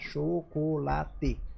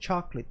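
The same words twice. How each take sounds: First: It is said with full Brazilian Portuguese vowels. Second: It is said with clipped American English vowels. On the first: "a gente tem, então a gente vai falar chocolate" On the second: "em inglês vai ser chocolate"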